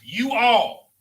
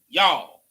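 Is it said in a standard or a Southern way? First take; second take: standard; Southern. First: It is said in the standard, uncontracted way. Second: It is said the Southern, contracted way.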